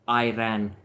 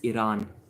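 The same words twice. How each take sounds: First: It is said with a North American pronunciation. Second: It is said with a long 'ah' vowel. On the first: The speaker calls it wrong. "a lesson for the North Americans. It's not Iran" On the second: The speaker calls it right. "As we would pronounce it, E R A A N"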